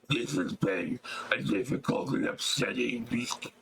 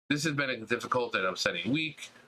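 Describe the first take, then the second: First: It is read in a horrendous, monstrous put-on voice. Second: It is read in the speaker's ordinary natural voice.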